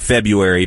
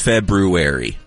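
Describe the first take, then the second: First: The r after the b is dropped. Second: The r after the b is clearly pronounced. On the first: "we all just kind of say February because we just rush through" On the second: "The actual pronunciation is February"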